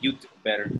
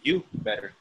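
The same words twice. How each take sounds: First: A d sound is heard before better. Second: No d sound is heard before better. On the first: "I don't say you better" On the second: "I say you better. I don't add a th"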